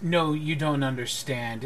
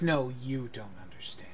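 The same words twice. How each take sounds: First: Said in the usual way. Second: "you" held and stressed, softer overall. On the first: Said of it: "he says". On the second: Acted. Eleanor answers the lord back, quietly stressing "you". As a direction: turn it back with weight on "you". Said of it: "Eleanor chuckles and she goes".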